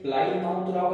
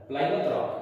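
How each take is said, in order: First: "प्लायमाउथ rock" read as spelt, "माउथ" sounded out; mispronounced Plymouth. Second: "प्लायमाउथ rock" said "PLY-muth rock"; correct pronunciation. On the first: Teacher warning students off a misreading, "प्लायमाउथ" said with a full "mouth". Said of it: "pronunciation में प्लायमाउथ rock नहीं होता है". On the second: Teacher showing spelling differs from sound, "प्लायमाउथ" ending in short "muth". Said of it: "pronunciation अलग होता है". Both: Shown as a demonstration.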